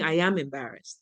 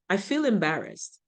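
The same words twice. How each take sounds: First: "am" stressed, falling tune. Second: "feel" stressed, falling tune. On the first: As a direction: lean on "am" in "I am embarrassed". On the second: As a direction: lean on "feel" in "I feel embarrassed". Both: Shown as a demonstration. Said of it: "versus saying".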